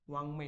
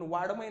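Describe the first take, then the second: First: The consonant before 'may' is a nasal sound. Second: The consonant before 'may' is a 'd' sound. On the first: The speaker calls it right. "नीट लिहितो" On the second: The speaker calls it wrong. "याला आपण वाडमय नाही म्हणत"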